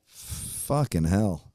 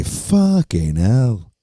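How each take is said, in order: First: Said in the usual way. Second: Slow, drawn-out British "Fucking hell" with the vowel rounded off; mock British curse, stretched slowly; light British impression, slow; British accent. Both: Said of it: "Or as the British say".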